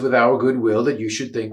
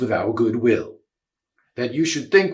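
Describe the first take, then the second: First: It runs on without a break after 'will'. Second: It stops with a full break after 'will'. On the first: It is one complete thought. "sort of ignore the punctuation" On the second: The nervous speaker muddles the sense. "if you play the punctuation Shakespeare gives you"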